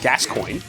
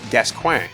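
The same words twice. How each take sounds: First: The name ends like English 'coin', with an oy sound. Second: The name ends in a French-style nasal 'kwan' sound. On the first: The speaker calls it right. "in English, you pronounce it Gascoigne" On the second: The speaker calls it wrong. "I read it as Gascoigne, based on like French"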